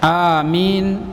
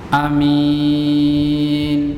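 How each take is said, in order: First: The first vowel is drawn out long. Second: The first vowel is kept short. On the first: "dipanjakan alifnya" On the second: "tanpa memanjangkan hamzanya"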